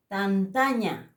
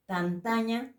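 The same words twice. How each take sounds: First: "Tantaña" drawn out slowly, falling at the end; slow Aymara word. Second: "Tantaña" at normal pace with a light rise; quicker repeat. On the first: Teacher modelling the word for students, slow and careful. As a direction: stretch "Tantaña" syllable by syllable. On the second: Teacher repeating for students, quicker with rising tune. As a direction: say "Tantaña" once more, lifting the end. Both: Shown as a demonstration. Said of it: "repitiendo las otras letras".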